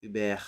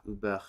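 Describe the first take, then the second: First: "über" ending in a full "-ber", "oo-BEHR"; stressed R syllable. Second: "über" ending in a weak schwa, "oo-buh". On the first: Deciding on a loanword's sound, stress on the R syllable. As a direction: give the last syllable of "über" a full open e. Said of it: "the stress will be on the R". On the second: Trying out a German loanword, schwa in the last syllable. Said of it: "trying to do the schwa". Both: Shown as a demonstration.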